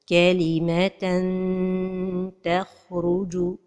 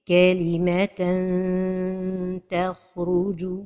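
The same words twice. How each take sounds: First: The tongue touches the palate, giving a clear n. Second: The tongue nears the palate, giving a hidden nasal. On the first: The speaker calls it wrong. "toucher le palais supérieur avec le bout de la langue" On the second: The speaker calls it right. "la prononciation correcte"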